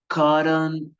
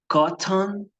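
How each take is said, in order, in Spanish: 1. Se dice con acento americano. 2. Se dice con acento británico. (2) "británico"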